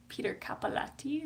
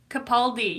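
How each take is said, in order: First: "Capaldi" said as "CAP-a-latty", softly; unsure mispronunciation. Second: "Capaldi" said as "kuh-PAL-dee"; corrected pronunciation. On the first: Real, not acted. Streamer unsure of actor's name, "Capaldi" as "CAP-a-latty". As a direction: guess at "Capaldi" as "cappa-LATTY", quietly. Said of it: "is that how you say his name?". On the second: Shown as a demonstration. Streamer corrected on actor's name, "Capaldi" as "kuh-PAHL-dee". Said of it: "that's how it's pronounced".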